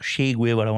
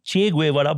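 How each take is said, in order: First: The first name begins with an s sound. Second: The first name begins with a ch sound.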